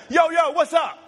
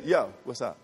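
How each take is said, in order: First: High, shouted, insistent call; emphatic greeting. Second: Low, soft throwaway greeting; casual greeting. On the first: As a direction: call someone over urgently. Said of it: "No, we gotta talk now". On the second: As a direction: toss it off like a passing hello. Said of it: "Yo is like, "Yo, I'll see you later". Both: Shown as a demonstration.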